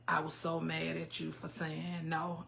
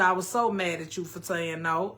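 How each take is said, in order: First: Low, much softer read-out; quiet comment reading. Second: Said in the usual way. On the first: Real, not acted. Streamer reading a viewer's comment, low and quiet.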